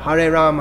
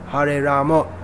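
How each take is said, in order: First: The name ends on the m with no vowel. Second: The name ends with a vowel after the m. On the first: This is how people in the Hindi-speaking area say it. "In the Hindi speaking area, they'll just say Ram" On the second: This is how people in Bengal say it. "They say Ramo, Hare Ramo"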